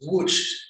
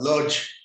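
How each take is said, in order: First: The name is said with a Polish pronunciation. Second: The name is said with an English pronunciation. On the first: "in Polish, it's pronounced Łódź" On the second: "give it an English pronunciation and call it Lodz"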